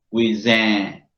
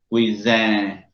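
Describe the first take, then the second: The two takes are said the same way.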